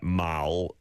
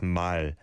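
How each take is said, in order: First: "Mal" with a dark L in the back of the throat; swallowed English-style L closing "Mal". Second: "mal" with a light L, not from the throat. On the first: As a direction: end "Mal" on a heavy throaty L. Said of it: "in the back of your throat like that". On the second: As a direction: end "mal" on a clear, forward L. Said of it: "It's not a dark L sound". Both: Shown as a demonstration.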